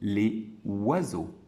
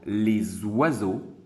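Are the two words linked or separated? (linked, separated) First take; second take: separated; linked. First: The two words are said apart, without linking. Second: The two words run together with a linking sound. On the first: It is dictated more calmly. "j'ai dicté la phrase plus calmement, j'ai dit les oiseaux" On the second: It is read more quickly. "je vais faire certaines liaisons. Je dirai par exemple les oiseaux"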